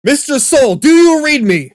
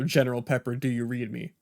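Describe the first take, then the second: First: Loud, high, panicked radio call; urgent shout. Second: Calm and measured. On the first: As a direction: yell it like the signal's breaking up. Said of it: "someone starts sounding like their audio is distorting". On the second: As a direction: say it calmly after a pause. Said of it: "you say their name first, give it a sec, and then say". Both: Shown as a demonstration.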